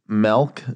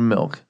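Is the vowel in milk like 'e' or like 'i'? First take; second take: e; i. First: The vowel sounds like 'e', as in melk. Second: The vowel sounds like 'i', as in ink. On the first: The speaker calls it wrong. "Do you say milk instead of milk?" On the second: The speaker calls it right. "that's an I. That's not an E"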